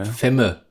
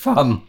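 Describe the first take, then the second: First: The vowel is an 'e' sound. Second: The vowel is an 'a' sound. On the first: This is how people say it locally. The speaker calls it wrong. "Würde man hier in Ostberlin sagen" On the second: This is how it is properly said. The speaker calls it right. "aber eigentlich Fam"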